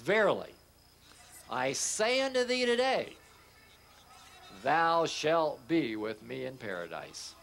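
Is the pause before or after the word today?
after. The pause comes after the word today.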